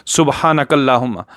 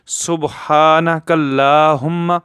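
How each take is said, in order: First: सुबहानकल्लाहुम्मा rushed, long a not stretched; rushed wrong reading. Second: सुबहानकल्लाहुम्मा slow, haa stretched one alif long; correct recitation. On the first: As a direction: say सुबहानकल्लाहुम्मा quickly, skipping the long vowel. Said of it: "दोस्त पढ़ देते हैं जल्दी से". (जल्दी से गलत पढ़ना) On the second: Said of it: "ऐसे पढ़ना है". (सही, हा को एक अलिफ लंबा) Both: Shown as a demonstration.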